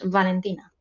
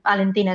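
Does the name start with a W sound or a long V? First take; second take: long V; W sound. First: The name starts with a drawn-out V sound. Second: The name starts with a W-like sound. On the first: The speaker calls it right. "Es como extendiendo la V" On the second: The speaker calls it wrong. "no es Valentina"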